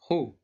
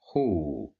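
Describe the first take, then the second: First: The vowel is short. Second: The vowel is long. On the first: "the letter kha controlled by dhamma" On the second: "if we add waw"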